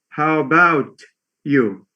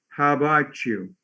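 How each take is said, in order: First: The t and you are kept separate. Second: The t and you merge into ch. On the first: The speaker calls it wrong. "most foreign language learners tend to say" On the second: The speaker calls it right. "in connected speech, it goes to"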